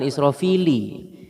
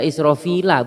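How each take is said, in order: First: The word ends with an 'i' vowel. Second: The word ends with an 'a' vowel. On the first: The speaker calls it wrong. "bukan Israfili" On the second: The speaker calls it right. "dibaca Israfila"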